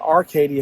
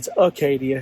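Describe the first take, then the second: First: The first syllable has an R sound. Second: The first syllable has no R sound. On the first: The speaker calls it wrong. "I pronounced it" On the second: The speaker calls it right. "There's no R in it"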